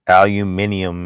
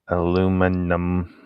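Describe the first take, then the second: First: The word is said with five syllables. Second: The word is said with four syllables. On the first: This is the way it is supposed to be said. The speaker calls it right. "It's supposed to have an I in there" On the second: This is the American way of saying it. The speaker calls it wrong. "Americans don't say it. They say it without the I"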